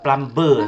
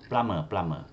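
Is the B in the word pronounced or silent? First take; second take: pronounced; silent. First: The B sound is pronounced in the word. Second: The B sound is silent in the word. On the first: The speaker calls it wrong. "It's not plumber, no" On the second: The speaker calls it right. "we don't sound the B"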